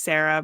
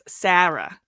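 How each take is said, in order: First: It is said the short West Coast way. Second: It is said the elongated East Coast way.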